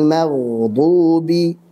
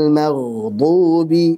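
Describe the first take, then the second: Both takes have the same delivery.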